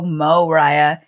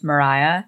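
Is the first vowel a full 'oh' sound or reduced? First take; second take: full; reduced. First: The first vowel is a full, hard 'oh'. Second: The first vowel is short and reduced. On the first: This is how others misread the name. The speaker calls it wrong. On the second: This is how the name's owner says it. The speaker calls it right.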